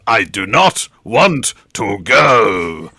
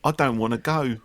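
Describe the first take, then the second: First: It is delivered in a grand, theatrical way. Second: It is delivered in a sad, emotional way.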